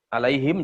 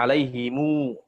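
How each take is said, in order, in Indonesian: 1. Kata ini berakhir dengan bunyi m. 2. Kata ini berakhir dengan vokal u panjang.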